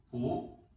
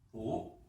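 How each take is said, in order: No difference in how they are said.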